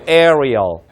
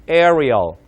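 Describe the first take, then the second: Both takes have the same delivery.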